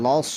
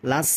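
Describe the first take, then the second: First: লস with rounded vowel and heavy s; full, heavy-ended লস; correct sad. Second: লাস with open a and light s; wrong thin s. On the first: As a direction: round লস into a thick s. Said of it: "সদটা উচ্চারণ করতে হবে". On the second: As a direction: say লাস flat-vowelled, plain s. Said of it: "লাস বললে হবে না". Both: Shown as a demonstration.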